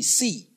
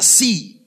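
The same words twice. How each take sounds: First: Said in the usual way. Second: A firmer, louder "see". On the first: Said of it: "Say it after me". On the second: Shown as a demonstration. Preacher urges congregation to repeat louder, louder call. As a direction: lift the volume on "see".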